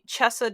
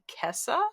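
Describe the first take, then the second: First: The word begins with a ch sound. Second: The word begins with a k sound. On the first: This is how it is said in Italian. "definitely Chessa does not come to mind" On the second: This is another way an English reader might say it. "maybe Kessa"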